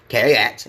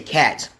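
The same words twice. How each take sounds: First: The word is said in a deep, foreign-accented voice. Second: The word is said plainly, without an accent. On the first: "some people have an accent that goes along with saying the word cat" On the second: "cat is a plain way of saying something"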